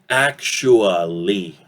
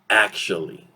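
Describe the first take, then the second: First: The middle vowel is said fully and clearly. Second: The middle vowel is weakened and barely heard. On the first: "normally we pronounce it actually" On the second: "this uh sound will reduce... we will actually listen to this word as this"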